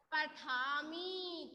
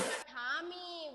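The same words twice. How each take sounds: First: पठामी drawn out very slowly, falling; slow model word. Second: पठामी repeated slowly, falling; slow confirming repeat. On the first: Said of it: "तो क्या हो जाएगा ये?". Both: Shown as a demonstration.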